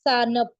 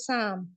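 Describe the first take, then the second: First: The n is pronounced as a full consonant. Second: The n is only a nasal vowel sound. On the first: The speaker calls it wrong. "ऐसे नहीं पढ़ रहे हम" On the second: The speaker calls it right. "नून सिर्फ उसकी थोड़ी सी आवाज आ रही है"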